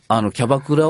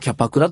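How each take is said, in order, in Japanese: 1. 真ん中の子音は有声のb音です。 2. 真ん中の子音は無声のp音です。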